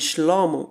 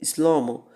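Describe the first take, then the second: First: The word begins with an 'sh' sound. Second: The word begins with an 's' sound. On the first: The speaker is not from the tribe of Ephraim. "em vez do nome Shlomo" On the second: The speaker is from the tribe of Ephraim. "eles diziam Slomo"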